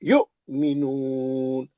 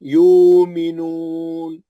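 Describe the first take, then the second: First: A sharp glottal catch follows the short first vowel. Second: The first vowel is lengthened with no catch. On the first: The word is read with the hamza. "अब वाव नहीं पड़ेंगे, अब मध्यस्थली नहीं होगा, अब हमजे साकिना का झटका होगा" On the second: The word is read without the hamza. "वाव साकिन से पहले पेशा के मध्यस्थली हो गया... दो हरकत हो गया"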